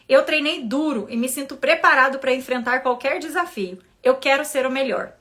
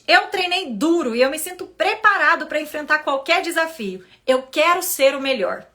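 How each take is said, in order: First: It is read in a neutral tone. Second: It is read with expressive intonation.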